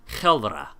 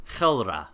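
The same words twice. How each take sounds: No difference in how they are said.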